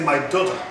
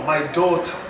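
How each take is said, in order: First: The first vowel of daughter is short. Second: The first vowel of daughter is long. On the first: The speaker calls it wrong. "So you can't say my daughter" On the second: The speaker calls it right. "there is a long vowel here"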